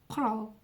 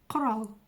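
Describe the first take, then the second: Both takes have the same delivery.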